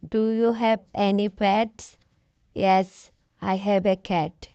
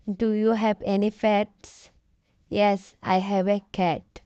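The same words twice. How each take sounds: The two takes are said the same way.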